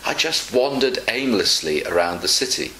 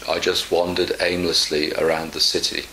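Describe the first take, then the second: First: The tone sounds cheerful and positive. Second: The tone sounds flat and negative. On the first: The wandering was an enjoyable experience. "one is positive, the first one" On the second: The wandering was dull and unsatisfying. "the other is not so positive. It's negative"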